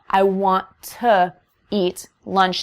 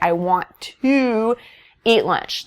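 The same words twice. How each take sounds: First: The word 'to' is short and light. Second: The word 'to' is full and stressed. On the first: The speaker calls it right. "an in-between" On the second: The speaker calls it wrong. "That's just too, again, T O O, too um, stressed"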